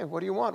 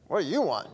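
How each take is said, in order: First: The question sounds calm and gentle. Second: The question sounds sharp and irritated. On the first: The asker kindly offers help. "calm and compassionate" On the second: The asker is annoyed at being followed. "turning around like"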